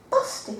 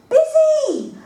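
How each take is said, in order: First: Small, quiet "Busty?" in dismay; quiet shocked "Busty?"; horrified realisation. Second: "Busy!" blurted much higher and louder; panicked shout of "Busy!"; loud correction. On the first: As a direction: notice the typo with a sinking hush. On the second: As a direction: yell the right word in panic. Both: Acted.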